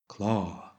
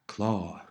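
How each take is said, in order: Both takes have the same delivery.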